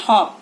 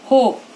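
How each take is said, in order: First: हॉप with a short, open "o" as in hot; short O sound. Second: होप with a long, round "oh" vowel; long O sound. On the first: Teacher showing children the short sound, short O in हॉप. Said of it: "short sound". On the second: Teacher showing children the long sound, long O in होप. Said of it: "long sound". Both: Shown as a demonstration.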